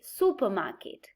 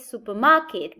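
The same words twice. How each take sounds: First: The main stress is on the first syllable. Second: The main stress is on the third syllable. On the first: The speaker calls it right. "the main stress is moved to the first syllable" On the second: The speaker calls it wrong. "we do not say supermarket"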